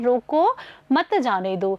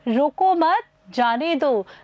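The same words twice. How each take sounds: First: There is a pause right after 'roko'. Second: There is a pause right after 'mat'. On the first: The listener is told to stop and not go. "यहाँ पर रुको के आगे हमने अल्प विराम लगाया है" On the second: The listener is told to go and not stop. "रोको मत के बाद में अल्प विराम लगाया है"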